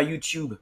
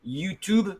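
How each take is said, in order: First: "YouTube" with a glide, "you-tyoob"; British YouTube. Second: "YouTube" with "toob", no Y glide; American YouTube. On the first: Teacher showing what Americans avoid, "tyoob" in "YouTube". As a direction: say "YouTube" British-style, "chube" at the end. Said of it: "et pas YouTube". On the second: Teacher showing what Americans say, "toob" in "YouTube". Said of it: "ils disent par exemple". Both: Shown as a demonstration.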